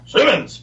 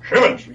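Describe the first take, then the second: First: It is said plainly, without a lisp. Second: It is said with Sarge's slight lisp.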